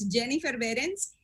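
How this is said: The name is pronounced with Spanish sounds. "in Spanish se dice Behrens"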